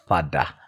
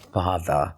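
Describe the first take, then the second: First: The middle consonant sounds like a 'd'. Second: The middle consonant sounds like 'th'. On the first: It is how people in the speaker's home town say it. "they pronounce F A D A as father" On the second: It is the standard way to say it. "not father"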